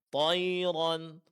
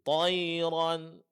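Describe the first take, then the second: No difference in how they are said.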